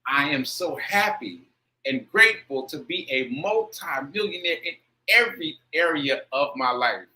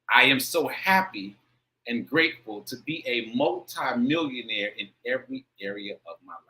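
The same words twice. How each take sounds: First: It is said with strong feeling. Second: It is said with ordinary feeling.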